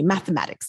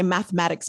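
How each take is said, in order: First: It is said in a Trinidadian accent. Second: It is said in a plain American accent.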